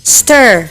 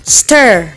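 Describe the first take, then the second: No difference in how they are said.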